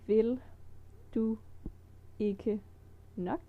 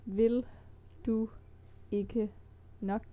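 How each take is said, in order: The two takes are said the same way.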